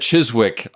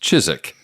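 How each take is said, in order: First: The W sound is pronounced in the middle. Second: The W sound is left out entirely. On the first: The speaker calls it wrong. "I said Chiswick, I think, in the original review" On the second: The speaker calls it right. "he said it's pronounced Chiswick. The W is silent"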